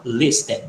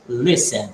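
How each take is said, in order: First: "listen" with a sounded t, LIS-ten; mispronounced with T. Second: "listen" as LISS-en, t left out; silent T. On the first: Teacher showing students what not to say, sounded T. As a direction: put an audible t into "listen". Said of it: "você não fala". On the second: Teacher showing students what to say, silent T. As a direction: say "listen" with no t at all. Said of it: "vai falar". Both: Shown as a demonstration.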